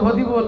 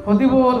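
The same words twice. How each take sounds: First: The r is replaced by a d-like sound. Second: The r is replaced by a d-like sound.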